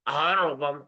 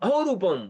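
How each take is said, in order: First: It is said in a braying, donkey-like voice. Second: It is said in a normal speaking voice.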